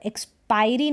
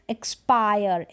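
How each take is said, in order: First: एक्सपायरी with the final e sounded as "ee"; एक्सपायरी, mistakenly voicing the last letter; wrong pronunciation. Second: एक्सपायर ending in "-yer", silent final e; correct pronunciation. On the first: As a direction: say एक्सपायरी as "eks-PY-ree". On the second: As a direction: say एक्सपायर as "eks-PY-er". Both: Shown as a demonstration. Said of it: "एक्सपायरी नहीं".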